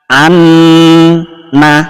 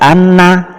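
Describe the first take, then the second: First: The n sound is held for two beats. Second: The n sound is held only briefly. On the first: The speaker calls it right. "Tahan dua ketukan" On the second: The speaker calls it wrong. "atau sedikit saja anna, salah"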